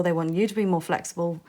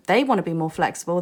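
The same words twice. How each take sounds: First: "you" leaned on as the contrast; stress on YOU. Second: "they" leaned on, quicker phrase; stress on THEY. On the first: Reader turning it onto the listener, stress on "you". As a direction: put the weight on "you". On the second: Reader saying who wants flexibility, stress on "they". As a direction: put the weight on "they". Contrasts them with you. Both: Real, not acted.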